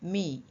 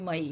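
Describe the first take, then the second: First: The vowel sounds like 'ee'. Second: The vowel sounds like 'eye'. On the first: Y comes at the end of a longer word. "ದೊಡ್ಡ ಪದಗಳ ಎಂಡಲ್ಲಿ ವೈ ಬರುವಾಗ ಈ ಉಚ್ಚಾರಣ ಬರುತ್ತದೆ" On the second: Y does not come at the end of a longer word. "ಅಲ್ಲಾದರೆ M ವೈ ಮೈ"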